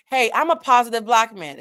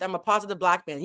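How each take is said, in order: First: A louder, brighter take on Puff's line; mock upbeat announcement, louder; Puff's upbeat intro. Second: Said in the usual way. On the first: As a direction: hype it up like a stage greeting. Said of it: "he started off with". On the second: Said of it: "Puff responds with".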